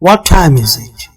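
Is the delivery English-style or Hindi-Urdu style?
English-style. It is said with an English-style delivery. The speaker calls it right. "मगर अदायगी अदायगी"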